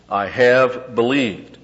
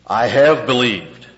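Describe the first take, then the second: First: Slow, "have" pressed again with a falling tune; stress on have. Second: "have" leaned on, slow and louder; stress on have. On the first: Preacher repeating Martha's words, slow, stressing "have". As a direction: hold "have" to drive the tense home. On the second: Preacher stressing Martha's "have", slow and loud. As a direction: stretch out "have" to show the perfect tense. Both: Shown as a demonstration. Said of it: "Perfect tense".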